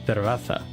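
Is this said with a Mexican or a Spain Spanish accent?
Spain. The c and z are said as lisped th sounds.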